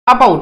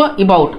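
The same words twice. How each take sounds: First: Said in the usual way. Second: About with a short "i" sound first, "i-BAUT"; lower-pitched about, opening on a quick light "i"; corrected pronunciation. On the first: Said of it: "ये जो about हम लोग pronounce करते हैं". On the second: Shown as a demonstration. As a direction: say about as "ibaut", first vowel reduced. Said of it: "actually इसको about इस type से".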